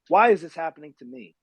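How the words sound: It sounds like a self-pitying complaint.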